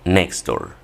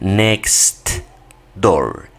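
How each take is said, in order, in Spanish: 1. La t en 'next' se omite por completo. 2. La t en 'next' se pronuncia claramente. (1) "nada más dicen next door" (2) "Ya no dicen next door"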